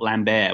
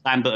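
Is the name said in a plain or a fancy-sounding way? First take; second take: fancy; plain. First: The name is said in a fancy-sounding way. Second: The name is said in a plain way. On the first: This is not the name's real pronunciation. The speaker calls it wrong. "not Lambert, which sounds more fancy to me" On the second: This is the name's real pronunciation. The speaker calls it right. "I discovered it's Lambert"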